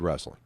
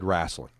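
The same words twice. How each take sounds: First: The word has a standard pronunciation. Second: The word has a Southern-sounding pronunciation. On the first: This is how the father never said it. "Never said wrestling" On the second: This is how the father always said it. "He always said wrestling"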